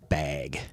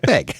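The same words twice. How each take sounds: First: Bag is said in a plain, unmarked accent. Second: Bag is said with a Minnesotan accent. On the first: "I think I've always said bag" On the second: "the way they pronounce bag. Often sound like, like bag, just like that"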